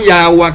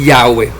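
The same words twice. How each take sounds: First: Yahweh said as "YAH-wah"; Yahweh with final "wah"; Yahweh ending in -wah. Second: Yahweh said "YAH-weh", lower; Yahweh with final "weh"; Yahweh ending in -weh. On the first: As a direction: end Yahweh on an A sound. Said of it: "que lo pronuncian Yahweh". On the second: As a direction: drop the pitch, ending Yahweh on E. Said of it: "donde dice". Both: Shown as a demonstration.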